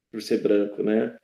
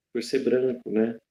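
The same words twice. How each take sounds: The two takes are said the same way.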